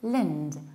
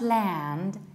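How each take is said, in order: First: The syllable has a reduced, weak vowel. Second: The syllable has a full, open vowel. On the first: The speaker calls it right. "reduce the ending and say lind" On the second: The speaker calls it wrong. "It's not land"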